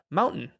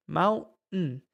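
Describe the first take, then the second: First: "Mountain" with a glottal stop in the middle, said as maw-n; demonstrating "Mountain" without a t; model pronunciation. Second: "Mountain" slower, glottal stop for the t; second model of "Mountain"; model pronunciation. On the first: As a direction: cut the t in "Mountain". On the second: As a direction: draw out "Mountain" with no t. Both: Shown as a demonstration. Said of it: "pronunciación para mountain".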